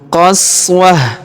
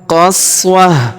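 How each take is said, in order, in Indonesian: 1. Kata ini berakhir dengan h sukun. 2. Kata ini berakhir dengan h sukun.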